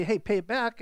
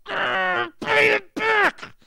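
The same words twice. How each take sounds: First: Said in the usual way. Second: Much higher and louder, a slow furious shout; a full-throated, slow angry cry; intense fervor. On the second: Shown as a demonstration. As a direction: roar the demand as if choking him. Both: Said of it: "There was some intensity, some emotion, some fervor".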